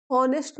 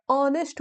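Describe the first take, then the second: First: ऑनेस्ट said the wrong way, with an h sounded; wrong pronunciation. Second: ऑनेस्ट said correctly, starting on the vowel; correct pronunciation. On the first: Teacher shows students the mistaken h-sounded ऑनेस्ट. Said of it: "ऑनेस्ट नहीं होता". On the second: Teacher shows students the correct, h-less ऑनेस्ट. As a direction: say ऑनेस्ट the right way, with no h. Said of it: "ऑनेस्ट होता है". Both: Shown as a demonstration.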